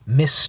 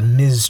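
First: The word ends with a hissing s sound. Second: The word ends with a buzzing z sound. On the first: The speaker calls it wrong. "If they meant it to be pronounced Miss Tree, ... that's not quite right" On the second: The speaker calls it right. "Ms. is pronounced Ms"

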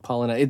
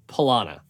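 First: The middle vowel is quiet and reduced. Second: The middle vowel is full and clear. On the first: The speaker calls it right. "that middle A is not very stressed" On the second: The speaker calls it wrong. "Not Palana"

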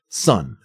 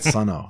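First: The name is said as one syllable. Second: The name is said as two syllables. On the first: The speaker calls it right. "It's not Sun-O" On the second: The speaker calls it wrong. "insisted to me that it was pronounced Sun-O"

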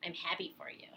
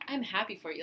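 First: It sounds sarcastic and resentful. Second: It sounds sincere and friendly.

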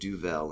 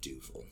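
First: The word is said with a French-sounding pronunciation. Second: The word is said with a Dutch-sounding pronunciation. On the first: The speaker calls it wrong. "when people pronounce it Duvel" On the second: The speaker calls it right. "instead of Duvel"

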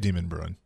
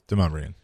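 First: The name sounds like the words demon bruin. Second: The name does not sound like demon bruin. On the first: This is how visitors say it. The speaker calls it wrong. "tourists will say Demon Bruin" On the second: This is how locals say it. The speaker calls it right. "no, it's Demumbrian"

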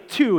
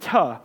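First: The vowel is a full 'oo' sound. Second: The vowel is reduced to a short 'uh'. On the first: "He doesn't say "to,"" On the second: "he says "tuh,""

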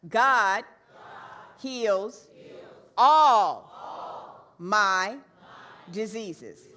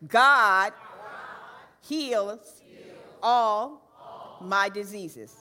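First: The word 'all' is stressed most. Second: The word 'God' is stressed most. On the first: "let's say all on all this time" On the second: "Let's say God with some fervor"

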